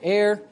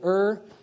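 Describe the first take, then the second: First: The word has an American pronunciation. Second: The word has a British pronunciation. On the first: "you just want to speak American English, you can say err" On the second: "Err is actually the British way or, you know, the proper way to say it. So if you want to be true to the mother tongue, you say err"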